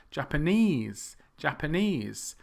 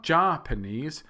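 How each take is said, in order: First: Japanese as japa-NESE; long stressed NESE in Japanese; last-syllable stress. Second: Japanese as JAH-puh-neez; JA loud and stressed in Japanese; wrong first-syllable stress. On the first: Teacher modelling for learners, end of Japanese stressed. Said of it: "think of the language or the people". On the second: Teacher showing learners a mistake, JA stressed in Japanese. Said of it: "It's not". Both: Shown as a demonstration.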